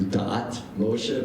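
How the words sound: It is said in modern Hebrew pronunciation. This is how it would be said today. "It would be in modern Hebrew"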